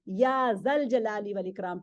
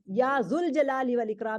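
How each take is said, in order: First: The word after 'ya' has an 'a' vowel. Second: The word after 'ya' has an 'u' vowel. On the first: The speaker calls it right. "या जल जलाली वल इकराम पढ़ना है" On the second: The speaker calls it wrong. "जू नहीं कहना है, या जुल जलाली वल इकराम नहीं पढ़ना है"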